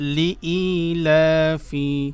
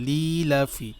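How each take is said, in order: First: A separate 'i' sound follows 'li'. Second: The 'i' after 'li' is dropped. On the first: The speaker calls it right. "লাম জের লি হামজা ইয়া জের ই লিইলাফি" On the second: The speaker calls it wrong. "লি ই যে আছে এটা কিন্তু বলেন না এটা কিন্তু ভুল"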